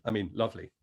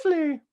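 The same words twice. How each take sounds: First: Said in the usual way. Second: A slip, lovely squeaked high after the ee; accidental high lovely. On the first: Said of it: "Excuse me". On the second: Real, not acted. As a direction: lovely still stuck far up in head voice. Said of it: "Excuse me, I mean lovely".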